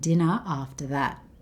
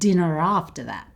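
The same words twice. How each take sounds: First: Dinner and after are separate, with no R sound. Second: Dinner and after are joined with an R sound. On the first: "She said these two words as two separate words" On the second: "we can actually join these two words to make one long word"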